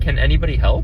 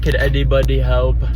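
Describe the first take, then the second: First: The N sounds come out as clear N sounds. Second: The N sounds come out like D or B. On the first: The speaker calls it right. "I'm saying, like" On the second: The speaker calls it wrong. "I'm not saying"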